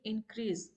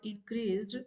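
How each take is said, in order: First: The final ed sound is dropped. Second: The final ed sound is pronounced. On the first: The speaker calls it wrong. "they say it increase" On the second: The speaker calls it right. "if there is a word increased"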